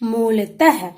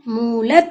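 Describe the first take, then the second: First: It ends with a final breathy h sound. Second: It ends without a final breathy h sound. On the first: "आहा की मात्रा लगाने से इसका उच्चारण क्या होगा बच्चों?" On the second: "मूलत लिखा था"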